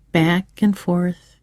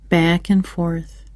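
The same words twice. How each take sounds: The two takes are said the same way.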